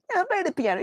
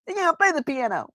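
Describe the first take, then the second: First: High cartoon accusation, repeated; Simpsons cartoon voice. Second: High shrieking cartoon accusation; Simpsons cartoon voice. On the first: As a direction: shriek it again, cartoon-style. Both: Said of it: "in The Simpsons".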